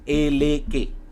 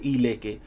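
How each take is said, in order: First: The word begins with an 'eh' vowel. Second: The word begins with an 'ee' vowel. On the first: This is the name used in Lukumi. "but in Lukumi it is Eleke" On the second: This is the name used in another tradition. "Maybe in Sheshe they will call it Ileke"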